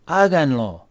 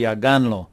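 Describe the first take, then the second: First: "háganlo" stressed on HA; HA-gan-lo, accent at the front; stress on first syllable. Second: "háganlo" stressed as ha-GAN-lo; wrong accent, on the second syllable of "háganlo"; stress on middle syllable. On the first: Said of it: "The accent's up here". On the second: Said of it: "Otherwise, it'd be". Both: Shown as a demonstration.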